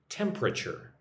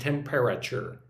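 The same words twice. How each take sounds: First: The word is said with three syllables. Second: The word is said with four syllables. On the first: The speaker calls it right. "When I say it, it has three syllables" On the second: The speaker calls it wrong. "I do not say temperature"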